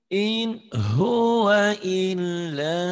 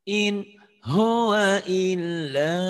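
The two takes are said the same way.

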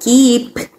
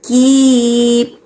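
First: The final P is audibly released. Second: The final P is held without release. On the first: The speaker calls it wrong. "Eu não falo keep" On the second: The speaker calls it right. "O som não sai"

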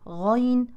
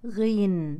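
First: The first vowel is an open 'a' sound. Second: The first vowel is an 'i' sound. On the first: The speaker calls it right. "اسم الحرف الصحيح غين" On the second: The speaker calls it wrong. "وليس غين"

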